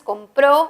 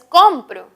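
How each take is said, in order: First: The stress is on the last syllable. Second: The stress is on the first syllable. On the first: He or she bought it in the past. "compró en pasado, tercera persona" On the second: I buy it now. "compro, primera persona presente"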